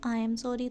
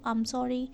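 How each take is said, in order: First: 'I am' is said as two full words. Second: 'I am' is shortened into one syllable.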